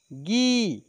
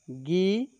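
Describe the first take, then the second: First: गी stretched, rising then falling; forceful long vowel. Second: गी said lightly, rising at the end; gentle short vowel. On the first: Teacher showing second of the pair, firmer long गी. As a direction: put more force into a long गी. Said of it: "बाद वाले को जोर से बोलेंगे". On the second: Teacher showing first of the pair, gentle short गी. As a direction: ease up through a brief गी. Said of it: "एक को धीरे से बोलेंगे". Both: Shown as a demonstration.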